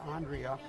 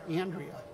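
First: The name is said without a Buffalo accent. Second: The name is said with a Buffalo accent.

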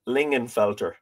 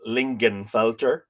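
First: The G sound is left out of the name. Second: The G sound is pronounced in the name. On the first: The speaker calls it right. "apparently you don't pronounce the G" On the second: The speaker calls it wrong. "I've been saying Lingenfelter"

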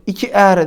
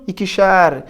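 First: The ending follows directly with no sh sound. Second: An sh sound comes before the ending. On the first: The speaker calls it wrong. "2'er demiyorum" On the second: The speaker calls it right.

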